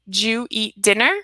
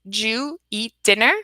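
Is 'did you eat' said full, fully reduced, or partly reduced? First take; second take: partly reduced; partly reduced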